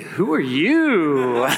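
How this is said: The voice is a soft, romantic whisper. The man is charmed by the stranger. "did he romantically whisper it?"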